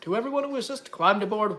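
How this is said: It is read in a fancy, put-on voice.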